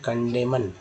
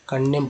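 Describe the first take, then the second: First: The word ends with an n sound after m. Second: The word ends in m with no n sound. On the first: The speaker calls it wrong. "ना कि कंडेमन, ऐसे नहीं पढ़ते हैं" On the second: The speaker calls it right. "कंडेम पढ़ा गया"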